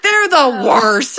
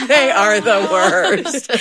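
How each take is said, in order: First: Slow, laughing, higher; laughing verdict. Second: Very slow, laughing, stressing they; laughing agreement. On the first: Wife quoting husband about the kids, laughing. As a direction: draw it out while chuckling. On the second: Wife agreeing with husband about the kids, laughing. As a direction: savor each word through laughter. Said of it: "And I'm like". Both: Retold or imitated.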